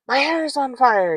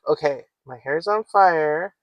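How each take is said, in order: First: It is said in a panicked, alarmed way. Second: It is said in a calm, steady way.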